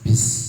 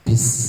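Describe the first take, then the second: Both takes have the same delivery.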